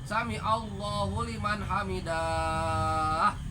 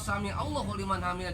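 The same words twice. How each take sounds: First: The end of hamidah is drawn out. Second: The end of hamidah is said short. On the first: The speaker calls it wrong. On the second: The speaker calls it right.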